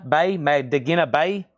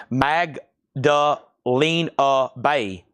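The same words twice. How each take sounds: First: "Magdakina Bay" said with a k sound, mag-da-KEE-na; misread band name. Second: "Magdalena" said slowly and carefully as mag-da-LAY-na; slow, careful "Magdalena Bay", fixing the misreading; corrected band name. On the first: Live seller misreading a record name aloud, mag-da-KEE-na. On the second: Live seller carefully correcting a record name, slow mag-da-LAY-na. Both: Real, not acted. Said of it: "I thought something looked weird there".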